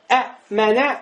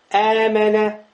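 First: A glottal stop separates the two vowels. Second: The vowels merge into one long vowel. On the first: "вместо слова «э-мэнэ»" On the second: "будет просто «э-мэнэ»"

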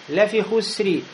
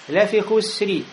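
The two takes are said the same way.

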